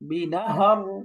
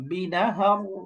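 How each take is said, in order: First: The word ends on a bare r sound. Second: The word ends on a bare r sound.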